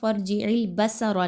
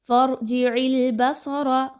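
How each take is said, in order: First: The s is light and thin. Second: The s is heavy and thick. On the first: The speaker calls it wrong. "नहीं पढ़ना आपने, सीन की तरह आवाज़ नहीं आनी चाहिए" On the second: The speaker calls it right. "स्वाद के मखरज पे गौर कीजिए"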